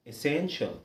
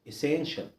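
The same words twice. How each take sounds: Both takes have the same delivery.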